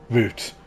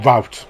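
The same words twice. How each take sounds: First: Route is said the British way, like root. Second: Route is said the American way, like rout.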